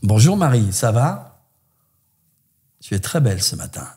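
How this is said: It sounds openly seductive.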